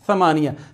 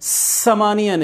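First: The first consonant is a soft, unhissed th. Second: The first consonant is a hard, whistling s. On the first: The speaker calls it right. "ये समानिया होता है" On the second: The speaker calls it wrong. "समानिया नहीं, जोर लगा के नहीं, सीटी बजा के नहीं"

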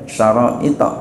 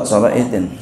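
First: The word ends in a plain vowel, no n. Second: The word ends with an added n sound. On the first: This is the regular grammatical form. "harusnya ya dia syara'ita begitu ya, enggak pakai tanwin" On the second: The form is bent to fit the verse meter. "Ini darurat, syara'itin"

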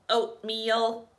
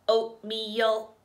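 First: It is said in a flat robot voice. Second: The same.

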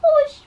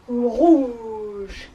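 First: It is said in a squeaky mouse voice. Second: It is said in a big elephant voice.

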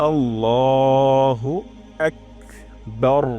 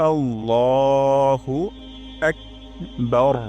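No difference in how they are said.

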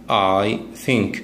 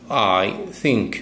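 The two takes are said the same way.

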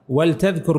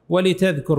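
First: The L has no vowel after it. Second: The L is followed by an 'i' vowel. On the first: It is a command. "بسكون اللام هذه أمر" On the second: It gives a reason or purpose. "بكسرها هذه للتعليل"

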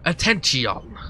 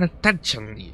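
First: The word is said in the put-on accent. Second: The word is said without the put-on accent. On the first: The speaker calls it right. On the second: The speaker calls it wrong.

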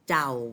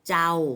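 First: The syllable is said on a low tone. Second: The syllable is said on a level mid tone. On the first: "เป็นเสียงเอก" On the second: "เป็นเสียงสามัญ"

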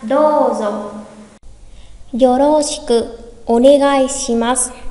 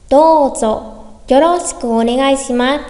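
First: It is said slowly. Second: It is said fast.

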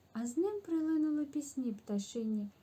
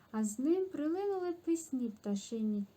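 The two takes are said the same way.

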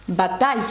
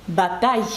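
The two takes are said the same way.

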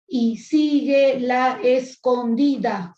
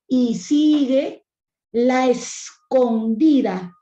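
First: The vowels of 'la escondida' stay in separate syllables. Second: The vowels of 'la escondida' merge into one syllable. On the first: It is counted as ordinary speech with eight syllables. "si hablamos de sílabas ortográficas... Serían ocho" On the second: It is read as verse with seven syllables. "se juntan y se forma la sinalefa. Y sería"

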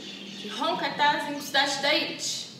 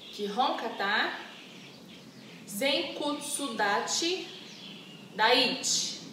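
First: The words are said at a quick pace. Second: The words are said at a slower pace. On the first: "Agora rapidinho" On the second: "De novo"

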